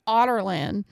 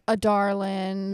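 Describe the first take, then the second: First: It sounds like the word 'otterland'. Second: It sounds like the phrase 'a darling'. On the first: The speaker calls it right. "according to the audiobooks, it's pronounced like Otterland" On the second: The speaker calls it wrong. "So I was like, a darling, whatever, something like that"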